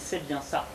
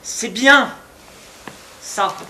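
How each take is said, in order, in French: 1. Le mot 'bien' est dit simplement et rapidement. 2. Le mot 'bien' est étiré et traîné. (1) "j'ai pas mis la bonne intonation" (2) "Avec cet étirement, cet accent"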